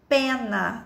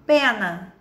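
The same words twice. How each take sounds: First: "Pena" stretched as pe, naa; syllable by syllable. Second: Said in the usual way. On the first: Shown as a demonstration. Teacher checking two mouth openings like gato, drawn out. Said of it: "abre a boquinha duas vezes".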